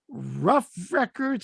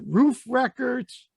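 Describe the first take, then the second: First: The name has a short vowel, like 'rough'. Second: The name has a long vowel, like 'roof'. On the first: The speaker calls it wrong. "I always say this wrong" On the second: The speaker calls it right. "It's Roof, actually"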